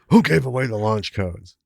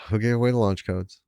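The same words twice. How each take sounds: First: It sounds alarmed and surprised. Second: It sounds flat, weary and resigned. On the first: Something shocking and unexpected has happened. The speaker calls it wrong. "And not like" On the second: This was always bound to happen. The speaker calls it right. "acknowledgement of the inevitability of this thing happening"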